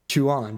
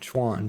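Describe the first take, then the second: First: The name is said with two syllables. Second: The name is said with one syllable. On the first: The speaker calls it wrong. "it's one syllable. It's not two syllables" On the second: The speaker calls it right. "I gotta say this correctly. One word"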